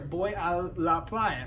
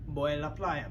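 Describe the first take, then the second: First: The phrase is said slowly and hesitantly. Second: The phrase is said quickly and smoothly. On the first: "I slowed it down. It's hesitant" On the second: "the Spanish is going to sound faster"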